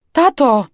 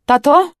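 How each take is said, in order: First: High, loud, falling cry; desperate call. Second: High, loud, rising call; anxious questioning call. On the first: Injured girl calls silent dad, desperate falling cry. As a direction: cry out insistently, pitch dropping at end. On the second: Injured girl seeks dad after crash, anxious rising call. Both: A narrator's reading.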